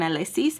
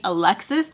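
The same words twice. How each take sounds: First: "Alexis" said as "ah-lih-SEES"; "Alexis" without the x, ending "sees"; other pronunciation. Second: Said in the usual way. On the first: Shown as a demonstration. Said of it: "he would call me". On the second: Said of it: "more than Alexis".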